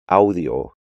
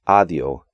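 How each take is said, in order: First: The au is said as a full glide. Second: The au is reduced to a plain a. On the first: The speaker calls it right. "when they should be" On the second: The speaker calls it wrong. "the A U combination is often just pronounced A"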